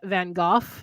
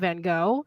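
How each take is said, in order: First: The name is said the British way. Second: The name is said the American way. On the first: "in England they call him Van Gogh" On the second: "in the United States we call him Van Gogh"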